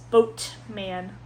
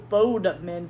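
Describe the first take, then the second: First: The name is said with a t sound. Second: The name is said with a d sound. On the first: The speaker calls it right. "It's Boatman" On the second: The speaker calls it wrong. "I thought it was Bodeman"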